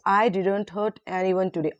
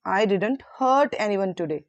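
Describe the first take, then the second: First: The stress is on the word I. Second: The stress is on the word hurt.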